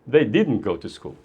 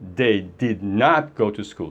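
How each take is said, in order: First: Did not is contracted into one word. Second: Did not is said as two full words. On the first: It is a simple, plain statement. "Ou então você fala simplesmente" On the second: The speaker stresses that they did not go. "Se você quiser enfatizar"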